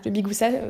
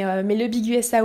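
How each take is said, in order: First: USA is blended into one word, 'ouza'. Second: USA is spoken as separate letters. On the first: "c'est une drôle de manière de le prononcer" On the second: "mais le Big USA, oui"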